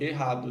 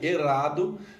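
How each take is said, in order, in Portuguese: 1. O R é suave, não rolado. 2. O R é forte, rolado. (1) "não precisa ser falado assim" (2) "com R entonado"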